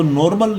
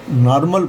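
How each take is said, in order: First: नॉर्मल with a round "nor" O; rejected O reading. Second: नॉर्मल as "NAAR-mal", open aa; open AA reading. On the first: Teacher shows students the reading to avoid, O-sounded नॉर्मल. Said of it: "इसको नॉर्मल नहीं पढ़ेंगे". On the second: Teacher shows students the taught reading, नॉर्मल as naar-mal. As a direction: open the first vowel of नॉर्मल to aa. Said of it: "नॉर्मल पढ़ेंगे". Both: Shown as a demonstration.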